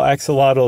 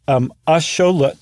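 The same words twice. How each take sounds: First: The word begins with an 'ak' sound. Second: The word begins with a 'sh' sound. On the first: This is the common everyday pronunciation. "what we call axolotl" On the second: This is the original Nahuatl pronunciation. "is actually axolotl"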